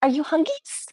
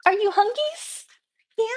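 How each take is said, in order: First: High cooing pet voice. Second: Very high squeaky pet voice. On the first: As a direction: coo at the hungry puppy. Baby talk asking dog. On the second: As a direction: squeal it to the puppy. Baby talk asking dog again. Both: Real, not acted.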